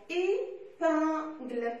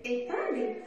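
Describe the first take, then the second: First: "épingle" slowly in three separate syllables, final one sounded; split into written syllables. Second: Said in the usual way. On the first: Shown as a demonstration. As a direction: break "épingle" into three beats with pauses. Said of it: "syllabes écrites". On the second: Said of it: "il y a deux syllabes".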